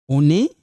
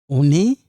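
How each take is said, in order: The two takes are said the same way.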